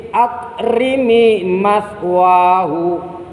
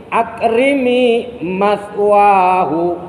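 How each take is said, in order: The two takes are said the same way.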